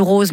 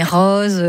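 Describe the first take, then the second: First: Said in the usual way. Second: Southern French "rose" with an open o; southern French accent. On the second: Shown as a demonstration. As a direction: say "rose" the Provençal way, short open o as in "robe". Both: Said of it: "j'ai commencé à prendre l'accent du Sud".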